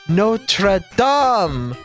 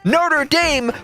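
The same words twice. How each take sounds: First: It is pronounced the French way. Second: It is pronounced the American way. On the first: It names the place in France. "you can feel the French dripping out of it" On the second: It names the American college. "you took that French word, dipped it in batter, and deep fried it"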